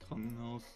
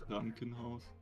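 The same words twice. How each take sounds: First: It is said plainly, without extra force. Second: It is said forcefully, with a harsh K and R. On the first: "if you just say it like that" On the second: "that can sound a little harsh, I guess"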